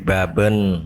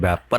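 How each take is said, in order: First: The middle consonant sounds like a b. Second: The middle consonant sounds like a p. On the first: The speaker calls it right. "tapi baben" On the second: The speaker calls it wrong. "bukan bapen"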